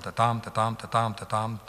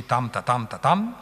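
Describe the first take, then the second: First: "ta, tam" short-long, stress second; light "ta" leading into each heavy "tam"; iambic beat. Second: "tam, ta" long-short, stress first; trochaic beat. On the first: Teacher recaps the iambs of verse two, beaten rhythm. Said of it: "on a des iambes". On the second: Teacher recaps the switch to trochees, beaten rhythm. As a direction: start heavy on "tam", drop light on "ta". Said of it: "on passe au trochée". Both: Shown as a demonstration.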